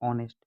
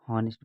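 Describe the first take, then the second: First: The word begins directly with a vowel sound. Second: The word begins with an audible h sound. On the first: The speaker calls it right. "Right pronunciation होता है ऑनेस्ट" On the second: The speaker calls it wrong. "बहुत से लोग हॉनेस्ट पढ़ते हैं, जो कि गलत है"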